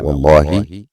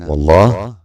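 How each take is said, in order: First: The word ends with an 'i' vowel. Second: The word ends on a bare h sound. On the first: It is a firm oath. "بكسر الهاء" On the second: It is a prayer praising God. "بتسكين الهاء"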